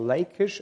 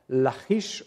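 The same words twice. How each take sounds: First: The name is pronounced in an English way. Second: The name is pronounced in a non-English way.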